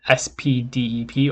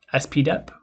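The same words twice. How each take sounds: First: "S P D E P" said letter by letter; spelled-out name. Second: "S P dep" with letters S, P, then dep as one syllable; alternative pronunciation. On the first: Lecturer naming a software package, spelled out letter by letter. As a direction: spell out "S P D E P", each letter named. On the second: Lecturer offering another way to say the package, dep as a syllable. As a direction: say "S P dep", running D-E-P into one word. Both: Shown as a demonstration. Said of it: "however you wanna pronounce it".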